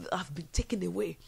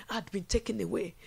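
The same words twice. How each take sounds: First: Whisper. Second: Said in the usual way. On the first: Acted. Whispered take before repeat.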